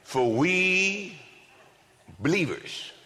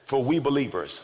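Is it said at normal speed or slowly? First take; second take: slowly; normal speed. First: It is said very slowly. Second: It is said at normal speed.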